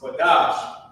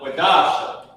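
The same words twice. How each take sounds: First: The final syllable is pronounced light and weak. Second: The final syllable is pronounced heavy and strong. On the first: The speaker calls it right. "the I at the end of it is not pronounced heavy" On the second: The speaker calls it wrong. "It doesn't have a heavy accent on it. Like it's not Quadash"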